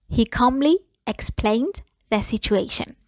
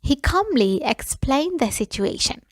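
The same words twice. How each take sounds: First: Calm whispered model sentence. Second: Said in the usual way. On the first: Shown as a demonstration. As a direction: breathe the line out without voice. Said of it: "repeat said in a whisper". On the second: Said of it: "first take, voiced".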